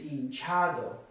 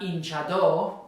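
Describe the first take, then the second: First: The stress falls on the second-to-last syllable. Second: The stress falls away from the second-to-last syllable. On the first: The speaker calls it right. "it's hinchado" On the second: The speaker calls it wrong. "it's not hinchado like it is hinchar"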